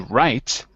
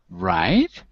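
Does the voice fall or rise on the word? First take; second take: fall; rise. First: The pitch falls on the word. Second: The pitch rises on the word. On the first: The listener is about to start speaking. "if you give a falling tone, it signals to me that you're going to speak" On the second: The listener wants the speaker to go on. "try it with a rising tone"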